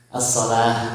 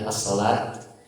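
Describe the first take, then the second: First: The word ends with an h sound. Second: The word ends with a t sound. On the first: The speaker calls it right. "Salah, bukan as-salat ya" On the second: The speaker calls it wrong. "dia baca tak dia as-salat"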